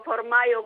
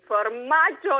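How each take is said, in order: First: The middle consonant is a 'y' sound. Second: The middle consonant is a 'j' sound. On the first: "come dicono gli americani" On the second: "formaggio in italiano"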